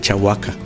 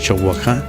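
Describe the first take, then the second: First: The name is pronounced as Chahuaca. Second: The name is pronounced as Chowacja. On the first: This is how people said it from hearing it. The speaker calls it wrong. "fue un error que ellos cometieron" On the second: This is the original name, meaning Long Lagoon. The speaker calls it right. "lo correcto es Chowacja"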